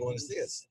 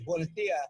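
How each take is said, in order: First: The final S sounds are pronounced. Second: Some final S sounds are dropped.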